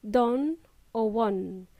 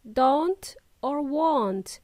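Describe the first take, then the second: First: "don or won" ending on n, no t; slow demo of "don" and "won" cut off before any t; final T dropped. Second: "Don't or won't" with a crisp final t on each; final T pronounced. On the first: Teacher showing learners the mistake, final T dropped. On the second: Teacher showing learners the last letter, final T pronounced. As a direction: slowly release the t in "Don't" and "won't". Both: Shown as a demonstration. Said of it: "make sure you pronounce the last letter T".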